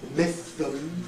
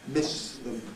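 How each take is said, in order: First: The s is lisped, made with a flat tongue. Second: The s is a clear hiss, made with a grooved tongue. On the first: It sounds like a speech defect. The speaker calls it wrong. "if we flatten it, then we get the pronunciation mythum" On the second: It sounds like a correct pronunciation. The speaker calls it right. "keep the tongue shape in the grooved posture"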